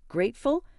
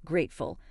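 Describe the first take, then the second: First: Mildly incredulous question, pitched up; incredulous echo. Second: Low, soft falling echo of the word; stung repetition. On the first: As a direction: throw the word back as a rising question. Wife stung by mother-in-law's word. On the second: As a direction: repeat it lower and quieter, as a statement. Wife bitterly repeats the word. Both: A narrator's reading.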